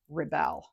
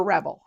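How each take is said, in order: First: "Rebel" as the noun, stress on the first syllable, REB-el. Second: "Rebel" as the verb, stress on the second syllable, re-BEL. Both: Shown as a demonstration. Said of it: "depending on if it's a noun or a verb".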